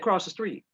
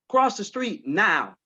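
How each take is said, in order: First: It is said at a normal, softer volume. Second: It is said louder and more forcefully.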